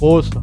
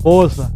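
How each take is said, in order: First: The first vowel is an o sound. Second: The first vowel is an o sound.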